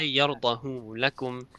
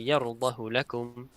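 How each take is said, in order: First: The vowel after the h is lengthened. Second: The vowel after the h is kept short. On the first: The speaker calls it wrong. "I do not say يرضه لكم" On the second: The speaker calls it right. "so I just say يرضه لكم"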